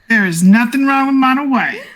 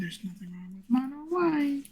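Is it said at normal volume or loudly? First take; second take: loudly; normal volume. First: It is said loudly. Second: It is said at normal volume.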